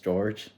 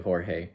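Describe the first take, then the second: First: The name is pronounced the English way. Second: The name is pronounced the Spanish way. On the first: The speaker calls it wrong. "in English it's George" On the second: The speaker calls it right. "my name is in Spanish, so it's actually Jorge"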